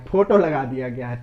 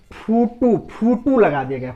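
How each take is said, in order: First: Said in the usual way. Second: फोटो said as "phootoo"; rustic pronunciation. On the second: Shown as a demonstration. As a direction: say फोटो with long oo in both syllables, "phootoo". Says foto rustic, then standard.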